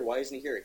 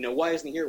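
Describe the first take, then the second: First: Said in the usual way. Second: Higher, louder retold outburst; mock frantic demand. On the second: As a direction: push the question like a worried friend. Ollie demanding Hal be there.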